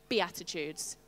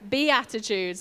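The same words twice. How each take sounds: First: The word is said plainly, without extra attitude. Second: The word is said with sassy, emphatic attitude. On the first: "Will you say that with me?" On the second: "you have to give it some attitude when you say Beatitudes"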